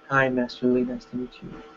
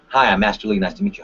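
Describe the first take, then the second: First: The voice sounds weak, passive and scared. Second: The voice sounds confident and friendly. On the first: The speaker calls it wrong. "Weak, passive, scared" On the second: The speaker calls it right. "that's great"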